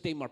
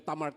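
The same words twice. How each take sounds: First: The name is pronounced the English way. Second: The name is pronounced in its original way. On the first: "Sa English" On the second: "Pero Tamar talagang pagbasa"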